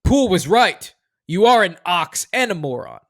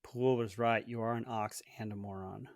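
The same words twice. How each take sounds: First: Loud movie read. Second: Quiet echo. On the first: Host reads quote loudly. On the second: Guest repeats quietly. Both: Shown as a demonstration.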